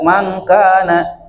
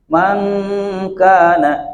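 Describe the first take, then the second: First: The nasal sound before k is cut short. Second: The nasal sound before k is held long. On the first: The speaker calls it wrong. "jadi tidak" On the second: The speaker calls it right. "Jadi agak ditahan ikhfa itu"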